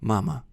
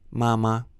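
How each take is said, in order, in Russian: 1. Конечный гласный — расслабленный шва. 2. Конечный гласный — полный, чёткий гласный. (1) "звучит максимально расслабленный шва" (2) "Мы не говорим ... Это будет итальянский акцент"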